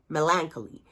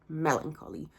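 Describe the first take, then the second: First: The stress falls on the second syllable. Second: The stress does not fall on the second syllable. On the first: The speaker calls it wrong. "I would just place the accent in the second syllable, so melancholy" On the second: The speaker calls it right. "it's melancholy"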